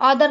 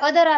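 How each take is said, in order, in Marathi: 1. पहिला स्वर खुला 'aw' आवाज आहे. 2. पहिला स्वर छोटा 'uh' आवाज आहे. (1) "ऑदर नाही हे" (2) "याला अदर असं वाचायचं"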